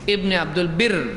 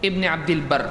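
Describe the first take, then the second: First: The last word has an 'i' vowel. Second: The last word has an 'a' vowel. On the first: The name means servant of goodness. The speaker calls it wrong. "बहुत सारे लोग उसको पढ़ते हैं इब्न अब्दुल बिर" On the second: The name means servant of a name of God. The speaker calls it right. "हाफिज इब्न अब्दुल बर"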